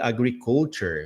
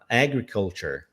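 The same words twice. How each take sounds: First: The stress falls on a later syllable. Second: The stress falls on the first syllable. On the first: The speaker calls it wrong. "Eu falei agriculture, alguma coisa assim" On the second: The speaker calls it right. "a tônica está na primeira sílaba"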